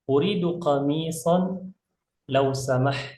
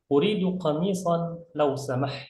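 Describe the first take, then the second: First: It is read at a slower, careful pace. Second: It is read at a somewhat faster pace.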